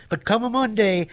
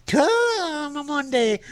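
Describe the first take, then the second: First: Said in the usual way. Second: High, slow stretched promise; sing-song hype. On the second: Pretend. DJ hyping a sponsor, high and slow. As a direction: drag it out like a pitchman. Ad phrase repeated.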